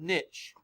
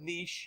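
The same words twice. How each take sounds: First: Niche is said the American way. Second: Niche is said the British way.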